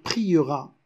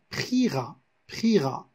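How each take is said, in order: First: Said in the usual way. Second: "priera" said as two syllables, pri-ra, the E silent; "priera" with the mute E dropped, pri-ra; poetic pronunciation. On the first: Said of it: "Au lieu de dire priera". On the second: Shown as a demonstration. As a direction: dire "priera" en deux syllabes, sans le E. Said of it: "mais en poésie, on va dire".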